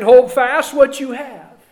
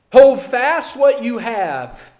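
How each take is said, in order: First: Loud, firm command on hold; forceful command. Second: Slow, weighted repeat with stress on hold; slow emphatic repeat. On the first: Preacher urging the church to hold fast, loud. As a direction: call it out firmly to the congregation. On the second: Preacher repeating the command slowly for emphasis. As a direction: draw each word out to drive it home. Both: Shown as a demonstration.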